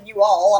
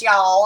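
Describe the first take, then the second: First: "you all" as two separate words, lightly put-on; northern you all. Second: "y'all" said as one syllable, yawl; Southern y'all. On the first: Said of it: "y'all make it two words". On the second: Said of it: "If you're in the South". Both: Shown as a demonstration.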